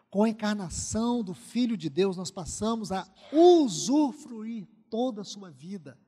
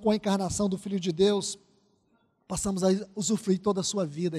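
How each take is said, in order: First: It is said very slowly. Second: It is said at a normal speed.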